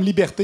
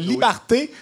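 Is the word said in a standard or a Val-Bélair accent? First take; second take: standard; Val-Bélair. First: It is said in a standard accent. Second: It is said in a local Val-Bélair accent.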